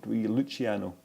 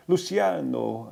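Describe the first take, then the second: First: Luciano with an Italian ch for the c; "Luciano" said slowly the Italian way, with ch; Italian pronunciation. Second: Luciano with an s sound for the c; "Luciano" drawn out with a soft s-like c; soft-c pronunciation. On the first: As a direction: say Luciano as "Loo-chee-AH-no". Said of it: "putting on an Italian accent". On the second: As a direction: say Luciano as "Loo-see-AH-no". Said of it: "Luciano or Luciano". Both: Shown as a demonstration.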